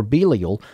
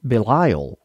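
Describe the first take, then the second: First: Belial said BEE-lee-al, stress on BEE; alternative pronunciation. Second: Belial said be-LIE-al, stress on LIE; Southern pronunciation. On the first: Offering another reading of the verse, Belial pronounced BEE-lee-al. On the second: Reading the verse to listeners, Belial pronounced the Southern way. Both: Shown as a demonstration. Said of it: "like to pronounce it".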